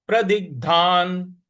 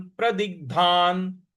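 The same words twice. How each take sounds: First: प्रदिग्धान said once more, ग stressed; stress demo. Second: प्रदिग्धान with the ग struck, said slowly; stress demo. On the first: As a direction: strike the ग in प्रदिग्धान. (प्रदिग्धान के ग पर ज़ोर) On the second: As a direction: hit the ग in प्रदिग्धान. (प्रदिग्धान के ग पर आघात) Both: Shown as a demonstration. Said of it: "जो ग है यहाँ पर हमको आघात देना है".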